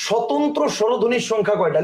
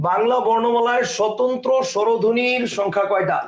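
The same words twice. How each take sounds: First: Said in the usual way. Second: Slow dictation. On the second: Shown as a demonstration. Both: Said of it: "লিখো".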